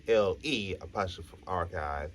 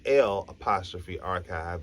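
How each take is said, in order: First: L E apostrophe archive, letters L E spelled before apostrophe; mocking the misspelling; wrong spelling spoken out. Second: L apostrophe archive, letter L then apostrophe; French spelling spoken out. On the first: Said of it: "That's not how it does". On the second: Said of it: "'cause it's supposed to be French". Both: Shown as a demonstration.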